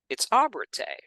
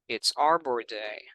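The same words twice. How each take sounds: First: It is read with lively, expressive intonation. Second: It is read flatly, without expressive intonation.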